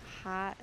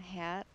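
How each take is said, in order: First: "hot" with an open ah, apart from "hat"; distinct O. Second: "hat" with the front a of "cat"; distinct A. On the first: Vlogger proving there's a difference, distinct O. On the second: Vlogger proving there's a difference, distinct A. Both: Shown as a demonstration. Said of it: "there's a difference when I say".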